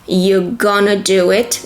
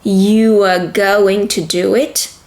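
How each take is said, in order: First: The words are contracted and reduced to 'gonna'. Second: Every word is said fully and separately.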